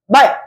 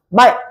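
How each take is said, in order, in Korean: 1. 마지막 ㄹ 소리는 빨리 닫혀요. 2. 마지막 ㄹ 소리는 빨리 닫혀요.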